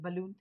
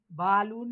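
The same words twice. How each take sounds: First: "बलून" with a quick weak first vowel, stress on the end; schwa in balloon. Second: "बालून" with a full, loud, long first vowel; wrong long a. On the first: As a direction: keep the start of "बलून" short and light. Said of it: "क्या बोलते हैं, बलून". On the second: Teacher loudly shows the wrong way to students. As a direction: overpronounce "बालून" as the mistake. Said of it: "बालून नहीं बोलते हम". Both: Shown as a demonstration.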